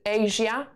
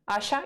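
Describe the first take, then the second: First: The name is given its English pronunciation. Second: The name is given its Polish pronunciation. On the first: "you would pronounce it Asia" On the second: "which is Asia in Polish"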